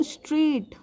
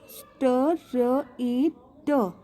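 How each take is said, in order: First: Said in the usual way. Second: "स्ट र ए ट" broken into separate, slow sounds; "स्ट र ए ट" spelt out by sound, each one held apart; sounded out slowly. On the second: Shown as a demonstration. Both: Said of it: "जब मैं स्ट्रेट बोलती हूँ तो".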